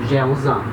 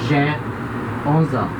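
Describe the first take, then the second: First: The sentence is spoken at normal speed. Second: The sentence is spoken slowly and carefully.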